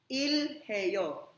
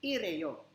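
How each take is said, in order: First: The h sound is pronounced after the l. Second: The h sound is dropped and linked smoothly.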